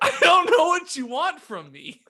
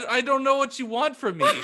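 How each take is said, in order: First: The voice is high-pitched. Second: The voice is deep. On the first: "I decided to be higher pitched" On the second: "I said I would do it deeper"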